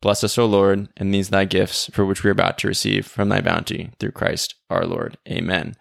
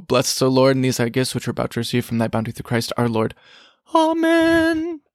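First: The same grace said evenly, each phrase given its place; deliberate prayer. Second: Rattled off fast, words running together; rushed prayer. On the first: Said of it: "If you were to say that slowly". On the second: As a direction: race through the grace as if late for lunch. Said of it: "Sometimes I say it so fast". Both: Shown as a demonstration.

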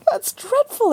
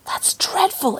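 First: High, shocked exclamation; exclaiming. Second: Hushed whisper of "dreadful"; whispered horror. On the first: Lucy exclaiming in shock at the pork. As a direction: squeal "dreadful" up high. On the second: Lucy whispering her horror at the butcher. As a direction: breathe it out in shock. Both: Acted. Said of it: "exclaimed Lucy".

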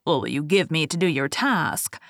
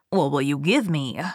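First: Lower, sly little man voice; a hint of a scheming dwarf. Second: Lower, sly little man voice; a hint of a scheming goblin; gravelly sly hobgoblin. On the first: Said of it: "the dwarf ... said". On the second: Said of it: "said the hobgoblin".

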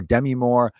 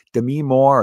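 First: Demi said DEM-ee, stress on the first syllable; alternate name pronunciation. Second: Demi said duh-MEE, stress on the second syllable; alternate name pronunciation. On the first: Host offering the other version, Demi as DEM-ee. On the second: Host unsure of the actress's name, Demi as duh-MEE. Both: Shown as a demonstration. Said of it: "Demi Moore or Demi Moore".

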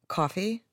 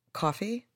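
Both takes have the same delivery.

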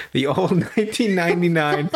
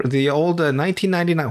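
First: Real laugh breaking into "nineteen ninety-nine"; amused laughing. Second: Said in the usual way. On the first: Real, not acted. Laughs at how old it is.

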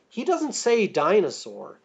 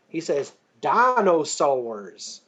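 First: Said in the usual way. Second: Dinosaurs drawn out slowly into four syllables, Mister DNA style. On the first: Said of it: "but the way he says it". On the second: Shown as a demonstration. Guest showing how Mister DNA says it: dinosaurs in four syllables. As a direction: stretch dinosaurs into four beats like a cowboy. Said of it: "it has four syllables".

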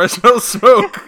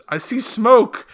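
First: Higher, louder bystander line; mock bystander. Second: Mock bystander. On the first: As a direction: call it out like a background extra. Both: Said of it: "someone says".

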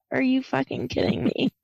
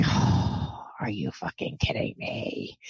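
First: Voiced, slightly raised disbelief; mild retold exasperation. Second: Low, breath-heavy disbelief; hushed exasperation. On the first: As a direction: say it aloud, a little higher, incredulous. Repeats the reaction, more voiced. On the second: Retold or imitated. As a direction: sigh it out low and under the breath. Retells exasperation at infected bite.

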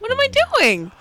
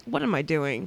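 First: High-pitched wail of a question; exasperated self-questioning. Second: Low, soft muttered question; quiet self-questioning. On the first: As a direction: wail it at yourself in mock despair. Repeats self-question as exasperated cry. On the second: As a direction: ask yourself under your breath. Questions herself in retold story. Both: Retold or imitated.

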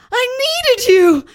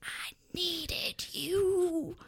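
First: Much higher and much louder, weeping; soap-opera sob; hammed-up wailing. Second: Slow, soft whisper; mock-tender whispered plea; quietly. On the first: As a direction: cry it out full volume. Simon's tearful reproach. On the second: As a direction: hush it slowly into his eyes. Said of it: "then said quietly".

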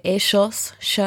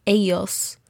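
First: Ellos said with a sh sound, e-shos; Rioplatense ellos. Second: Ellos said with a y sound, ell-yos; Mexican-style ellos. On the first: Teacher contrasts the Argentine version of the word. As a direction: ellos pronounced the Argentine way, sh in the middle. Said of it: "Argentina or Uruguay, they might say". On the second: Teacher models how the Mexican speaker said the word. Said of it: "he said". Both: Shown as a demonstration.

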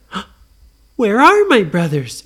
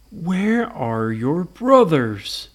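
First: Loud, high, alarmed question; gasp, then blurt it out high; mock-startled little girl; startled Nora. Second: Slow, drawn-out monster question; lumbering monster voice; Frankenstein. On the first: Nora notices brothers missing. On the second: Acted. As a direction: ask it ponderously, word by word.

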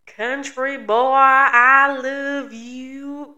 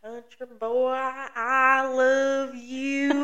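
First: Very slow, louder, higher drawn-out meme line; quoting the meme. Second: Slow, drawn-out meme line; quoting the meme. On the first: Host replays the meme for her co-host, stretched and loud. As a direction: belt it out like the old Vine. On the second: Host quotes an old meme to her co-host, drawn out. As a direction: stretch it like the old Vine. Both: Retold or imitated. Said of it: "Have you seen that video?".

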